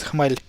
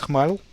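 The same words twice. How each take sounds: First: "Khmel" ending on a soft, palatalized L; "Khmel" with a Slavic soft L. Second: "Khmel" with kh and a plain hard L; "Khmel" without softening the L. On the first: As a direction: say "Khmel" with the final L softened, like "khmely". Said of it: "with a soft sign". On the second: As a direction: say "Khmel" ending on a dark L. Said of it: "the L is actually there with a soft sign". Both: Shown as a demonstration.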